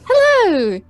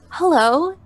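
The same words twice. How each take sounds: First: It is said in the princess's voice. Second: It is said in the human girl's voice.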